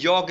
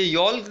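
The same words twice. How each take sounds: First: यॉक with the L dropped, rhyming with joke; correct yolk, silent L. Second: यॉल्क pronounced with a clear L before the k; wrong yolk with L. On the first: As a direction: say यॉक with no L, just yok. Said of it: "ये यॉक है". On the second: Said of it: "ये यॉल्क नहीं है". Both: Shown as a demonstration.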